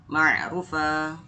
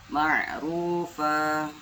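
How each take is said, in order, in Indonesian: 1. Vokal itu dibaca pendek. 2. Vokal itu dibaca panjang dua harakat. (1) "tidak boleh langsung" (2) "dibaca panjang dua harokat"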